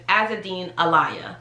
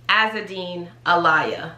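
First: The surname sounds like the words 'a liar'. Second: The same.

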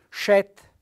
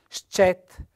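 First: The opening sc is one sh sound. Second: The opening s and c are sounded separately. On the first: The speaker calls it wrong. "uno che non conosce il dialetto cosa fa? Legge" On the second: The speaker calls it right. "In realtà bisogna leggere"

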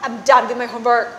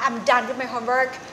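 First: The voice sounds fed up and annoyed. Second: The voice is calm and neutral. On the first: The speaker refuses to do any more of it. "ก็แปลว่าฉันไม่ทำอีกแล้วค่ะเลิกพอกันทีค่ะ" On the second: The work has simply been completed. "ก็ถ้าทำน้ำเสียงแบบนี้นะคะ"

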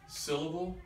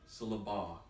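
First: The stress is on the first syllable. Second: The stress is on the third syllable. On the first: "I moved the accent from each of those syllables" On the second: "I moved the accent from each of those syllables"

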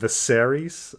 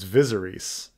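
First: The stress falls on the second syllable. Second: The stress falls on the first syllable. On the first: "suddenly put the emphasis on, you know, the second syllable" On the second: "I first read the book and I, you know, I said, oh, his name is Viserys"

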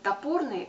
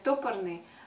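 First: The stress is on the second syllable. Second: The stress is on the first syllable. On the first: The speaker calls it right. "нужно говорить топорный, потому что это слово происходит от слова топор" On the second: The speaker calls it wrong. "когда я вдруг слышу ударение на первый слог"

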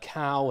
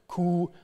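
First: The vowel is the diphthong 'ow'. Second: The vowel is a long 'oo'.

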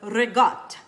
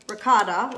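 First: The word is said with an Italian-style pronunciation. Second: The word is said with a plain English pronunciation.

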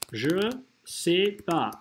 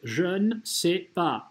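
First: The syllable 'ne' is left out. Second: The syllable 'ne' is clearly pronounced. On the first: "Французы в речи говорят «je sais pas»" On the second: "Вот так это делается"

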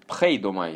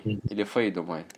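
First: The word begins with an aspirated p sound. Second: The word begins with an f sound. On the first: "я тоже переучиваюсь читать его как Пх" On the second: "Или"

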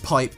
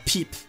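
First: The vowel is said like an English 'eye'. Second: The vowel is said like a French 'ee'. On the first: It means an ordinary pipe. "which is pipe" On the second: It is slang for a sexual act. "with a French accent"

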